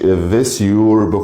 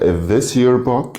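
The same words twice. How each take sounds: First: The word 'your' has a full vowel. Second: The word 'your' has a reduced vowel. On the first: "ما قلتش is this your book" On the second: "قلت is this your book"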